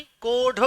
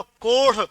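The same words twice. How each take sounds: First: कोढ़ with a hard aspirated retroflex ḍh stop. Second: कोढ़ with an aspirated flap ṛh; flapped ṛh. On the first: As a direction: say कोढ़ as "ko-ḍh", no flap. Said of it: "उच्चारण में फर्क आया". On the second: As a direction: flick the tongue on the ढ़ of कोढ़. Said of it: "और इसको बोलो". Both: Shown as a demonstration.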